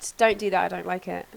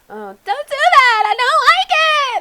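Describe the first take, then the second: First: It is said in a calm, plain way. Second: It is said in an overly emotional way.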